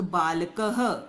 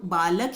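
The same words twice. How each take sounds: First: बालकः said very slowly, ending in a breathy ह; final h breath. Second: Said in the usual way. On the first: Shown as a demonstration. Teacher showing students the visarga sound in बालकः, slowly. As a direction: stretch out बालकः and add an h at the end. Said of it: "आवाज़ ह आएगी इसकी". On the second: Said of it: "तो बालक हिंदी में".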